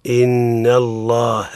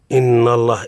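First: "إن الله" slowly with a light, thin nun; "إن" drawn out light and unemphatic; correct light in. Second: "إن الله" with the nun said heavy and emphatic; "إن" voiced thick, wrongly emphatic. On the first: Teacher showing the correct reading, slow light nun. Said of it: "الصواب هو". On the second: Teacher showing the student's mistake, heavy emphatic nun. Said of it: "المفخم حينما تقول". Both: Shown as a demonstration.

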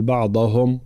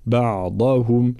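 First: بعضهم with a light ض, damma on هم not shown; the wrong بعضهم, light ض and vowels run together; بعضهم said without care, ض unthickened; wrong tajweed. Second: Slow بعضهم with a heavy ض and a clear damma on هُم; بعضهم: بَعضَهُم, heavy ض, light letters; correct tajweed. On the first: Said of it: "لا نقول". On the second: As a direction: say بعضهم slowly, ض thick, the rest light. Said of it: "تفخيم الضاد وترقيق بقية الحروف مع بيان الضم". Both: Shown as a demonstration.

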